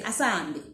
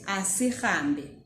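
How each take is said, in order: First: The middle syllable with h is dropped. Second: The middle syllable with h is fully pronounced. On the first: This is how people normally say it. "you kind of don't pronounce the H" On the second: This is the written form. "so that's how we write it"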